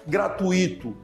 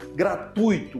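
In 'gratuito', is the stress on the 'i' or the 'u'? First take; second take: i; u. First: The stress falls on the 'i', split from 'u'. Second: The stress falls on 'u', with 'ui' joined. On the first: The speaker calls it wrong. "Nunca gratuito" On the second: The speaker calls it right. "Fala a segunda sílaba junto"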